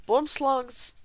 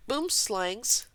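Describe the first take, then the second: First: "boomslungs" said with an uh vowel, boom-SLUNGS; "boomslungs", clearly pronounced with uh in the second syllable; correct pronunciation. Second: "boomslangs" said with a flat a as in slang; "boomslangs", second syllable like slang; wrong pronunciation. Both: Shown as a demonstration. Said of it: "that's how you really say it".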